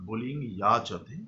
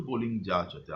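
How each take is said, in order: First: যাচতে begun with a y glide; pure Sanskrit pronunciation. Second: যাচতে begun with a hard j; Bengali-style pronunciation. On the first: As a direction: say যাচতে as "yachate", not "jachate". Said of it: "শুদ্ধ উচ্চারণে". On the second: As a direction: say যাচতে as "jachate", not "yachate". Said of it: "আমরা যখন বাংলা ভাষায় পড়াচ্ছি". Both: Shown as a demonstration.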